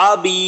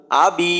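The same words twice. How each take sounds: First: আবি said with the throat of আইন; wrong, ain-like. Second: আবি with a gently eased hamza; আবি, the hamza kept light and soft; correct soft hamza. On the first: Teacher showing the mistake to avoid. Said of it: "আবি এমন না". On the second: Teacher giving the correct reading after the mistake. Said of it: "খুব নরম করে উচ্চারণ করলাম". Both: Shown as a demonstration.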